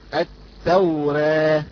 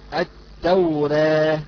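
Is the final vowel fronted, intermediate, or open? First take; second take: intermediate; intermediate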